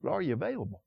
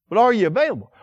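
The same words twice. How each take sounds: First: Much softer, letting "available" fall; quiet repeat. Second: "are" hit hard, challenging the flock; pointed challenge. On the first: Preacher repeats his question to the congregation, now soft and searching. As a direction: drop it to a near hush, searching. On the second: Preacher challenges the congregation, pressing hard on "are". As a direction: push the question out, stress on "are". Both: Shown as a demonstration.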